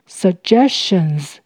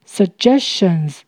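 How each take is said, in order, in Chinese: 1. 第一个 g 发 j 音。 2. 第一个 g 发 j 音。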